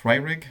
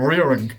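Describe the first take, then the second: First: Ryrig said as RYE-rig, questioning; unsure pronunciation. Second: Rearwig said as REER-ing, attempting the name; corrected pronunciation. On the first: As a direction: check the name, saying Ryrig as "rye-rig". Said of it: "Is that how, how it's pronounced?". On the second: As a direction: repeat Rearwig with an "ee" first vowel. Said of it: "It's Rearwig". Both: Real, not acted.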